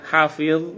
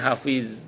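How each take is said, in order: First: The final consonant is an emphatic Arabic dha. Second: The final consonant is a plain z sound. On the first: It means memorizing or guarding. The speaker calls it right. "hafiz pakai dha itu artinya hafal atau menjaga" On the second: It means holding in a fart. The speaker calls it wrong. "ada orang Indonesia nyebutnya hafiz, artinya nahan kentut"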